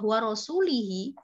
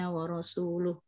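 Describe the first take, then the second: First: The final syllable has an i vowel. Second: The final syllable has a u vowel. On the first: Allah is free from the idolaters and from His Messenger. The speaker calls it wrong. "lamnya itu dibaca kasroh" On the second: Allah and His Messenger are free from the idolaters. The speaker calls it right. "yang saya garis merah itu"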